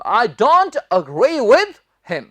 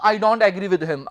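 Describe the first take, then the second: First: Very slow, "agree" as uh-GREE; correct pronunciation. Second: "agree" as AE-gree in the sentence; wrong pronunciation. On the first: Teacher modelling the right sentence, slow and careful. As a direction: stretch it out, "agree" starting on short uh. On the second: Teacher saying what they would not say, mispronounced. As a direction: show the mistake with "agree" opening on "ae". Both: Shown as a demonstration. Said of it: "मैं ये नहीं कहूंगा".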